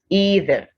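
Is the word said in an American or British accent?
American. It is said in an American accent.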